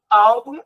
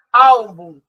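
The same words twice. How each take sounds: First: Said in the usual way. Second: Álbum with a loud, punched first syllable; Álbum, loud opening beat, falling away; stress on first syllable. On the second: Shown as a demonstration. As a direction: hit the AL of Álbum hard, let the end fall. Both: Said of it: "a sílaba mais forte é a penúltima".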